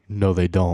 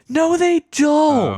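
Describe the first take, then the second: First: It is said flatly, in a stoic monotone. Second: It is said expressively, with lively emphasis.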